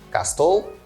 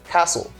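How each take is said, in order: First: The T sound is pronounced in the middle. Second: The T sound is silent in the middle. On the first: The speaker calls it wrong. "I don't pronounce the letter T. I don't say castle" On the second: The speaker calls it right. "I say castle"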